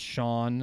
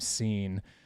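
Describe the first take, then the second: First: The name begins with 'sh' and rhymes with 'lawn'. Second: The name begins with 's' and rhymes with 'bean'. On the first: The speaker calls it right. "pronounced Sean" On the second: The speaker calls it wrong. "how many people call him Scene"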